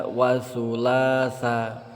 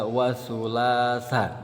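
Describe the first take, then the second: No difference in how they are said.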